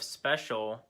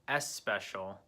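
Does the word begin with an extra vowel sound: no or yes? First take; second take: no; yes. First: It starts directly with the s sound. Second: An extra vowel comes before the s sound. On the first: The speaker calls it right. "instead of special" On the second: The speaker calls it wrong. "this doesn't sound very right in English"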